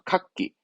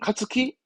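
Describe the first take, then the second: First: The consonant is doubled, with no 'tsu' syllable. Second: A full 'tsu' syllable is said before 'ki'. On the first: The speaker calls it right. "그렇죠. 카끼" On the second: The speaker calls it wrong. "그럼 카츠키? 아니죠?"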